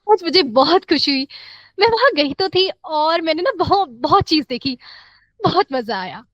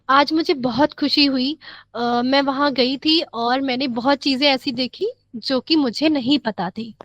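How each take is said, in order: First: It is said happily with audible breaths. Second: It is said flatly with no audible breaths.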